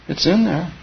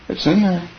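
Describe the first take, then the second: The two takes are said the same way.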